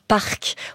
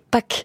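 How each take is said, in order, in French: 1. Le nom se dit avec un son R. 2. Le nom se dit sans son R. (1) "les États-Unis ont rajouté un R" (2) "en vrai, en coréen, c'est Pak"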